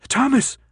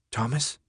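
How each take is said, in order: First: High-pitched cry of alarm; alarmed yell. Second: Soft, tentative question; a hushed, gently checking name; whisper. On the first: Brenda to Thomas as he convulses, yelling high. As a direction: call the name out in sudden alarm. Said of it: "Brenda yelled". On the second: Brenda checking on Thomas as he holds his head, hushed. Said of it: "Brenda whispered". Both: A narrator's reading.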